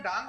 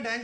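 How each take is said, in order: First: डांग said with an open "aa" vowel, Daang; डांग rhymes with "gong"; original pronunciation. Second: डैंग said with a flat "ae" vowel, Deng; डैंग rhymes with "bang"; styled pronunciation. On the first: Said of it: "actually में डांग होते हैं". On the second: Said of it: "style में डैंग बुलवाता है". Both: Shown as a demonstration.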